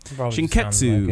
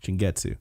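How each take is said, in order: First: The middle consonant is a voiceless K sound. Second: The middle consonant is a voiced G sound. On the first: The speaker calls it right. "No, with a K" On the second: The speaker calls it wrong. "with a G"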